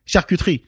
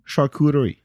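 First: "Charcuterie" as shar-koo-TREE, French r; French pronunciation. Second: "Charcuterie" Americanized as shar-KOO-duh-ree; English pronunciation. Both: Shown as a demonstration. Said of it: "I'm gonna say it the English way".

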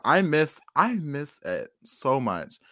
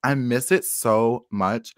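First: Slow, hammed-up sigh of longing; wistful longing. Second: Slow, drawn-out mock longing; wistful longing. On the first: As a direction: drag each word out wistfully. Longing repeated. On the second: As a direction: stretch it out like you really miss it. Longing for the old wall.

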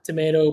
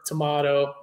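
First: Tomato said tuh-MAY-toe; American-style tomato, stressed MAY; tomato with long A. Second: Tomato said tuh-MAH-toe; British-style tomato, stressed MAH; tomato with broad A. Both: Shown as a demonstration. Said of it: "some people pronounce it differently".

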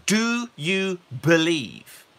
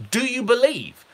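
First: Slow, searching "Do you believe?"; Jesus asking. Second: "Do you believe?" high, with believe stressed; emphatic question. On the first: Retold or imitated. Jesus asking the blind men, slow and searching. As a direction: ask it slowly and searchingly. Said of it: "What Jesus said is". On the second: Shown as a demonstration. Preacher pressing the congregation, high with stress on believe. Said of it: "What is Jesus looking for?".

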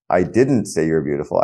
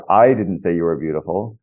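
First: "didn't" hit hard and the rest kept light; stress on DIDN'T. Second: "I" punched, the rest of the sentence light; stress on I. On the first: Demonstrating to the guest how stress shifts meaning, "didn't" stressed. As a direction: lean on "didn't" as a denial. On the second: Demonstrating to the guest how stress shifts meaning, "I" stressed. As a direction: lean hard on the first word "I". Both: Shown as a demonstration. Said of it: "put the emphasis on each of the six words".

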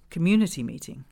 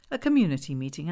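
First: Said in the usual way. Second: "community meeting" quicker, rising at the end; questioning tune. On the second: Acted. Narrator queries the notice aloud.

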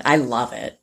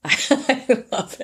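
First: Said in the usual way. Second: High, slow gushing laugh; drawn-out delighted gush. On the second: Real, not acted. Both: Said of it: "said twice, second drawn out".

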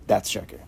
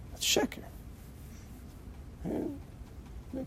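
First: Said in the usual way. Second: That's sheker breathed out as a whisper, softer. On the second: Shown as a demonstration. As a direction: whisper the repeat to drive it home.

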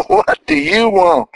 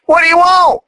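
First: Asks again through a real laugh. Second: Said in the usual way. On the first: Real, not acted. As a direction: laugh the question out playfully. Repeats question laughing.

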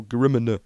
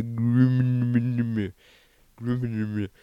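First: Said in the usual way. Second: Very slow, drawn-out mock presenter rumble on "Grimmer"; Jeremy Clarkson. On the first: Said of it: "or as Jeremy Clarkson would say". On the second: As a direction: stretch "Grimmer" into a long droning hum, imitating a car-show host. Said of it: "as Jeremy Clarkson would say".

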